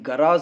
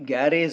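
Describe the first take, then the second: First: The first vowel is an open 'ah' sound. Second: The first vowel is a 'ya' like 'cat'. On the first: The speaker calls it right. "అది గరాజ్ అని పలికాను, ఇలానే పలకాలి" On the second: The speaker calls it wrong. "గ్యారేజ్ అనకూడదు"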